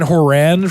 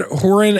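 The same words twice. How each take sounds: First: "Horan" with the stress on the last syllable; second-syllable stress. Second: "Horan" with the stress on the first syllable. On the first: Offering the other heard version of the surname, Horan stressed at the end. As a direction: say "Horan" as hor-AN, full second vowel. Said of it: "and Horan from some people". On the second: Offering one heard version of the surname, Horan stressed up front. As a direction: say "Horan" as HOR-an, weak second syllable. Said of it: "I've heard Horan and Horan". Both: Shown as a demonstration.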